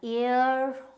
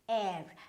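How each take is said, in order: First: The word sounds like 'ear'. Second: The word sounds like 'air'. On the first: The speaker calls it wrong. "you might pronounce it as uh, ear or here" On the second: The speaker calls it right. "It is air"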